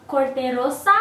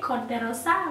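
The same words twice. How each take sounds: First: Said in the usual way. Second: "Corte Rosa" with a rolled Spanish r and open vowels; Spanish accent. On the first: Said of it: "I think that's how you say it". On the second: Shown as a demonstration. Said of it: "Look at me trying to get my Spanish accent".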